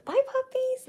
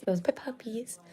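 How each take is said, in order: First: Much higher, cooing; high puppy voice. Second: Whispered and softer. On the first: Showing puppies to camera. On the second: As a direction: breathe it out in a whisper. Repeats to camera. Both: Real, not acted.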